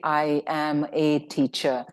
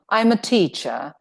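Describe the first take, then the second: First: The words 'I am' are said in full. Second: The words 'I am' are contracted to 'I'm'. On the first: The speaker calls it wrong. "this doesn't sound very well, although the meaning can be conveyed, it doesn't sound natural" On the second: The speaker calls it right. "if you use a contraction and say, I am, then it sounds better"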